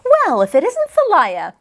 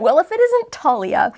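First: The name begins with a soft 'th' sound. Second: The name begins with a plain 't' sound. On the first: The speaker calls it wrong. "I'm going to like mispronounce her name when I see it spelled that way because I'm so used to my cat" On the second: The speaker calls it right. "Yeah, I like that"

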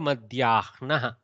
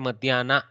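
First: An h sound is heard before the n. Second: No h sound is heard before the n. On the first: This is the Sanskrit form. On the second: This is the southern adapted form.

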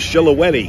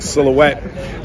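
First: It starts with sh and has four syllables. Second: It starts with s and has three syllables. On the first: The speaker calls it wrong. "thought the name of the car was the Shilohetti" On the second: The speaker calls it right. "I was not very good with words like Silhouette"

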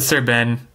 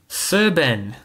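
First: It is said in the speaker's natural accent. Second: It is said in an odd put-on accent.

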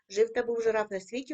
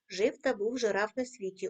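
First: The line is read faster still. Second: The line is read a bit faster. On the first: "кожного разу пришвидшуємо темп" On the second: "кожного разу пришвидшуємо темп"

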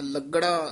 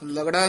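First: The g sound is doubled and held. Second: The g sound is short and single. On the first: The speaker calls it right. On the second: The speaker calls it wrong.

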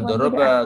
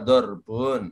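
First: The word ends in an 'a' vowel. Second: The word ends in 'un'. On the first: The speaker calls it wrong. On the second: The speaker calls it right.

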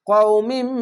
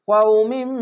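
Both takes have the same delivery.

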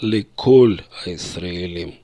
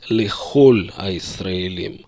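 First: The first word has a hard k sound. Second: The first word has a throaty kh sound. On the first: This is the everyday spoken pronunciation. "в обычной речи говорят" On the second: This is the formal standard pronunciation. "в нормативном иврите, в произношении, нужно сказать"

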